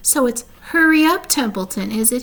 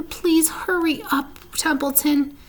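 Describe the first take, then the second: First: Mocking imitation. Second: High, slow begging; pleading pig. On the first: Templeton mocking Wilbur's plea, sneering parody. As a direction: throw his plea back at him. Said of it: "He began imitating Wilbur's voice". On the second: Wilbur begging Templeton to hurry, pleading. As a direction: beg him to move before it's too late. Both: A narrator's reading.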